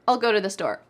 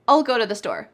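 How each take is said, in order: The two takes are said the same way.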